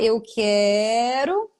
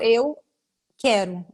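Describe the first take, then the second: First: A sound in the word is stretched out long. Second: There is a silent stuck pause before the word. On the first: "a prolongação do som" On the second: "Existe uma pausa, um bloqueio"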